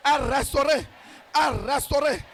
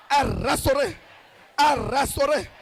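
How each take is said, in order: Both takes have the same delivery.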